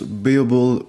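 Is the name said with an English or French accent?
English. It is said with an English pronunciation. "En anglais"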